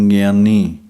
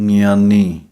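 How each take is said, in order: Both takes have the same delivery.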